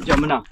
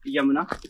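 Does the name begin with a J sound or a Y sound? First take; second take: J sound; Y sound. First: The name begins with a J sound. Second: The name begins with a Y sound. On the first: The speaker calls it right. "Local people कुछ ऐसे ही इसको pronounce करते हैं" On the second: The speaker calls it wrong. "It's not यमुना"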